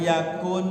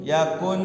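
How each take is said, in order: The two takes are said the same way.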